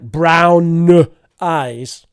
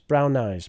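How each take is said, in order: First: The words are said with heavy, exaggerated force. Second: The words are said lightly, without extra force. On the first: The speaker calls it wrong. "It doesn't need to be very strong, right? It's not like" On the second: The speaker calls it right.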